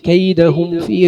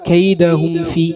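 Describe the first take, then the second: The two takes are said the same way.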